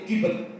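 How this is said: The first vowel is an 'i' sound. "Dibaca berhenti kibet"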